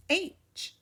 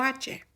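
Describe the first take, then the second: First: H said as English "aitch"; English letter name. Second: H said as Spanish "AH-cheh"; two syllables, "AH-cheh", for H; Spanish letter name. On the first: Teacher models English for learners, H as English "aitch". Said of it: "La próxima letra es H". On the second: Teacher gives learners the Spanish name, H as "AH-cheh". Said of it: "Como H". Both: Shown as a demonstration.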